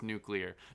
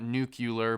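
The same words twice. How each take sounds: First: It is said as noo-klee-er. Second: It is said as noo-kyuh-ler. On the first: The speaker calls it right. "Of course, it's nuclear" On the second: The speaker calls it wrong. "not nuclear"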